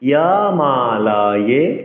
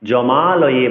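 First: The word begins with a 'y' sound. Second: The word begins with a 'j' sound. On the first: The speaker calls it right. "অন্তস্থ জকে ইয়ে উচ্চারণ করতে হবে" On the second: The speaker calls it wrong. "জমালয়ে বলা যাবে না"

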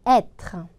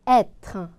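The two takes are said the same way.

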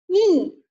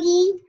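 First: The pitch falls sharply from high to low. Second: The pitch stays high and level. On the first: "四声读e e" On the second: "一声一"

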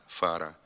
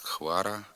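First: The word begins with an f sound. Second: The word begins with a khv sound. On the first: This is the standard pronunciation. The speaker calls it right. "слід вимовляти" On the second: This is a dialectal pronunciation. The speaker calls it wrong. "його заміняють двома звуками «х» і «в»"

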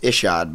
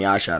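First: The name begins with an 'ee' sound. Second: The name begins with an 'eye' sound. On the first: This is the name's actual pronunciation. "it's Ishod" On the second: This is an accepted nickname version. "but you can call me Ishod"

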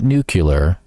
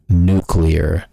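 First: The word is said as nu-cu-lar. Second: The word is said as nu-clear. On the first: The speaker calls it wrong. "Not nuclear" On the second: The speaker calls it right. "I said it right"

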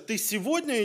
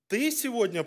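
First: The word сегодня carries the stress. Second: The word ты carries the stress. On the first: It asks whether the going happens today or another day. "то есть сегодня или может завтра или в другой день" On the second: It asks whether this person, not someone else, goes. "конкретно ты идешь в школу, или может быть кто-то другой"

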